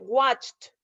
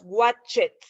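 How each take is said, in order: First: The ending is pronounced as a short 't' sound. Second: The ending is pronounced as a separate 'ed' syllable. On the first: The speaker calls it right. "en watched suena como una T" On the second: The speaker calls it wrong. "no se pronuncian así normal como nosotros este, diríamos watchet"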